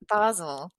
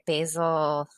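First: The name is said in a British accent. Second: The name is said in an American accent.

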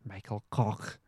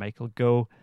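First: The surname ends with a guttural sound. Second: The surname ends on a vowel. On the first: This is how it might be said in the Netherlands. "Maybe in the Netherlands you call him Michael Koch" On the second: This is how it might be said in America. "Maybe in America you call him Michael Go"

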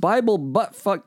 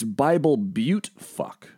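First: The second word begins with the sound 'butt'. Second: The second word begins with the sound 'byoot'. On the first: The speaker calls it wrong. "No, I'm sorry" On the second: The speaker calls it right. "Like Butte, Montana"

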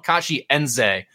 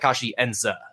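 First: The last syllable sounds like 'zay'. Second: The last syllable does not sound like 'zay'. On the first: The speaker calls it wrong. "we've been calling Kachienze this whole time, like Z-A-Y" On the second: The speaker calls it right. "he pronounced it more like Kachienze"

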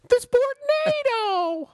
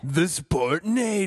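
First: It is said in a tiny, high Mickey Mouse voice. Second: It is said in his usual put-on voice.

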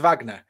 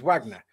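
First: The name is said with a German pronunciation. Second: The name is said without a German pronunciation. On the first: It refers to the German composer. "the musician is Wagner because it's German" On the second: It refers to the Russian organization. "This is a Russian group, so it's Wagner. You can't use a German pronunciation"

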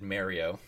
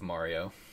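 First: The name is said the Canadian way. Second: The name is said a non-Canadian way. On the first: "Canadians said Mario" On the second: "instead of Mario"

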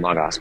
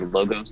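First: The vowels sound open, close to ah. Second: The vowels sound like a clear oh. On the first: It suits people who learned Greek. "the Erasmus pronunciation" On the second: It makes the spelling clear to lay listeners. "to make it clear it's two O's"

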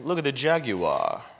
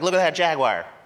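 First: It is said like a pompous Englishman. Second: It is said in a hillbilly accent.

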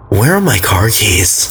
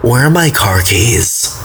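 First: The voice stays level or falls at the end. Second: The voice rises at the end like a question. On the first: It is read as a plain statement. "I didn't say it like a question because you didn't put a question" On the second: It is asked as a real question. "Like that"

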